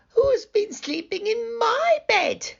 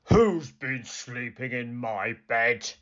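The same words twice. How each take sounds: First: It is said in a tiny, squeaky voice. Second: It is said in a deep, gruff growl.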